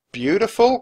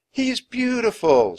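First: High, loud rising question; incredulous cry. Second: High, loud wonder; awed admiration. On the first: A narrator's reading. Jack doubting Annie about the serpent, incredulous cry. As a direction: throw it back in disbelief. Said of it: "cried Jack". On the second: Acted. Annie admiring the sea serpent, awed. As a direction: gush with wonder.

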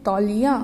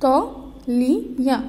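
First: Said in the usual way. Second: "तौलिया" drawn out slowly; slow model reading. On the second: Shown as a demonstration. Teacher reading "तौलिया" from the book to children, slowly stretched. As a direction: stretch "तौलिया" for the class to follow. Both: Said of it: "अब आपकी book में देखिए".

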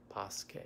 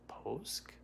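First: Poske in two syllables, ending in a vowel; name with final vowel. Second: Posk as one syllable, no final vowel; name ending in K. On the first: Host tries the viewer's surname another way, two-syllable Poske. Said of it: "I probably destroyed that, your last name". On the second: Host guesses a viewer's surname, one-syllable Posk. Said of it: "Is it Posk or". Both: Real, not acted.

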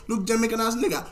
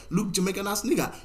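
No difference in how they are said.

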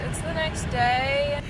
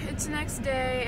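First: Slow, stretched and louder; drawn-out announcement. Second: Said in the usual way. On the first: Real, not acted. Vlogger greeting besties on a new day, drawn out. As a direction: draw the words right out, loudly.

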